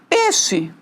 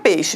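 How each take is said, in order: First: The first vowel is a plain e sound. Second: The first vowel is the full diphthong ei. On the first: "se eu falar peixe, não muda o significado" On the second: "A palavra peixe"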